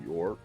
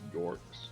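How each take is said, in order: First: The name ends without an s sound. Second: The name ends with an s sound. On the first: The speaker calls it wrong. "Could be York" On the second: The speaker calls it right. "but it's Yorks"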